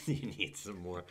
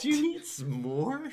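First: Laughing through the words, lower and softer. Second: Much higher, slow mock taunt; mocking jeer. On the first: Real, not acted. Cohost cracking up at his own taunt, laughing. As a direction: giggle the line out. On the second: Cohost repeating the bar crowd's taunt, high mock jeer. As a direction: echo the heckler in a hammed-up sneer.

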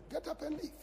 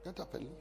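First: High, soft urging to go; a sudden high-pitched nudge; inner voice. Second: Much softer, dying-away repeat; fading inner voice. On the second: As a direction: let it trail into near silence. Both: Pretend. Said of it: "you will feel like".

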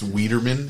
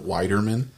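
First: "Wiederman", first syllable rhyming with need; long EE sound opening "Wiederman"; corrected name pronunciation. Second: "Widerman", first syllable rhyming with tide; long I sound opening "Widerman"; wrong name pronunciation. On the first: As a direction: say "Wiederman" with first vowel as in weed. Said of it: "It's Wiederman". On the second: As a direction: say "Widerman" with first vowel as in wide. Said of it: "he makes sure that it's not". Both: Shown as a demonstration.

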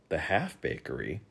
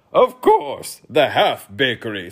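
First: Soft, puzzled query; questioning. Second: Loud retort, starting very high; snapped. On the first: Boy softly questioning the king's odd word. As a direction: ask it softly, unsure of the term. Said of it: "questioned Milo". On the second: King snapping at the boy's question, loud. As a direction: snap back loudly. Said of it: "snapped the king". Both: A narrator's reading.

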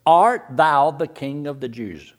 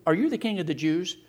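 First: Slow, solemn King James reading of the question; scripture reading. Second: Said in the usual way. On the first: Shown as a demonstration. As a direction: read it out like old scripture. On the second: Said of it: "Are you, are you".

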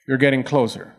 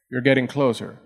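Both takes have the same delivery.

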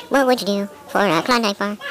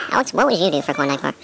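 First: Slow, drawn out tagline; slow slogan read. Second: Said in the usual way. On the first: Acted.

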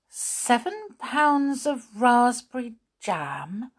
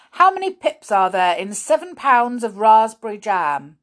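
First: High, slow, rising question; disbelieving echo. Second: Loud, high demanding question; stern schoolmaster. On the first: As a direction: repeat it as if you misheard. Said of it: "wondering if she had heard all, all right". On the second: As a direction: fire the question at a pupil. Grimm quizzing Molly. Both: A narrator's reading.

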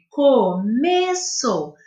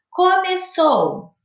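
First: Começou dragged out very slowly, syllable by syllable; slow teaching demonstration; very slow counting. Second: Começou stretched slowly, co-me-çou; slow and high, each syllable apart; teacher spelling out a word; syllables drawn out. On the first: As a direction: count the beats as you say it. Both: Shown as a demonstration. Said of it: "Quantas sílabas tem?".

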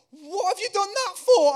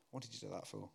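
First: Much higher, louder mock teacher squeal; laughing teacher. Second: Softer, lower gentle rhetorical question; quiet echo. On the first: Dinner lady laughing at the stuck boy, squealing mock teacher. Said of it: "they're going". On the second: Acted. Preacher echoing the teacher's question gently to the congregation. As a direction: let it land softly for the listener.

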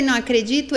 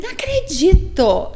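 First: Said in the usual way. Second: Não acredito said slow, higher and louder, falling at the end; a slow, stunned Não acredito, pitched up; stunned disbelief. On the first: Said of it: "Enquanto eu falei". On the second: Retold or imitated. Wife finding the hidden chip on the bed, stunned. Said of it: "eu só fiz assim".

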